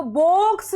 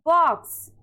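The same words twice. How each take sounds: First: बॉक्स misread as "boaks", long O; wrong long O. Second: बॉक्स said "baaks", vowel open. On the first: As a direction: stretch बॉक्स with a round "oh". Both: Shown as a demonstration. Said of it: "नहीं पढ़ना है".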